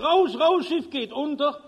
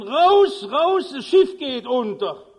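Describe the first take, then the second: First: Steward calling out high and urgent; desperate call. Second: Bellowing, much higher and louder; full-force yell. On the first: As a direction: raise the alarm down the corridor. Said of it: "ruft verzweifelt". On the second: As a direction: roar it at the top of your lungs. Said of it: "Brüllt aus Leibeskräften". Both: Acted.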